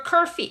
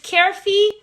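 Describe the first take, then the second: First: "Kerfi" with first syllable like "cur"; second pronunciation option. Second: "Kerfi" with first syllable like "care"; first pronunciation option. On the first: Streamer checking a member's name, "Kerfi" said CUR-fee. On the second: Streamer checking a member's name, "Kerfi" said CARE-fee. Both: Shown as a demonstration. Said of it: "Am I saying your name correctly?".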